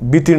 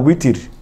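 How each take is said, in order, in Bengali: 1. শব্দটি B উচ্চারণ দিয়ে শুরু হয়। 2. শব্দটি W উচ্চারণ দিয়ে শুরু হয়। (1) "বাংলা ভাষায় ওয়াও উচ্চারণ করা সম্ভব নয় প্রায়, তাই আমরা বলি বিতির নমাজ" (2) "আসলে কিন্তু বিতির না, উইতির"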